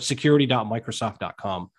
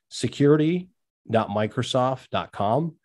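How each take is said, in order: First: It is said at a normal, quicker pace. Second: It is said slowly and deliberately.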